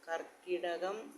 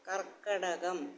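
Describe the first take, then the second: First: The second syllable has an 'i' vowel. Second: The second syllable has an 'a' vowel. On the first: The speaker calls it wrong. "ആ വള്ളി വേണ്ട അതിന്" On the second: The speaker calls it right. "കർക്കടകം എന്നാണ് ശരിയായിട്ടുള്ള വാക്ക്"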